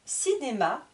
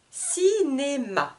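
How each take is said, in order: First: Said in the usual way. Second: "Cinéma" drawn out slowly in three beats; split into syllables. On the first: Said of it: "je vous répète le vocabulaire de chaque mot". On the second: Shown as a demonstration. Teacher introducing the word, "Cinéma" slowly syllable by syllable. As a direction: stretch each syllable, Ci-né-ma, in "Cinéma". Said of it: "Je coupe le mot en trois".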